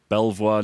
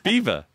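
First: It is said like 'Bel-vwar'. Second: It is said like 'Beaver'. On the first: The speaker calls it wrong. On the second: The speaker calls it right.

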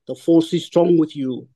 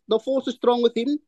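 First: It is said in a Darth Vader impression. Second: It is said in his normal voice.

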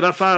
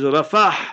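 First: The word ends on a plain vowel. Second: The word ends with a breathy h sound. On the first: The speaker calls it wrong. "don't say Rafa" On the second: The speaker calls it right. "With the H in the end, a Ha in the end"

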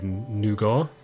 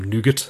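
First: Nougat is said in a non-American pronunciation. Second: Nougat is said in an American pronunciation.

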